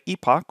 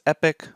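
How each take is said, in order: First: It is said with a British pronunciation. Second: It is said with an American pronunciation. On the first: "the British way" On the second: "the American way"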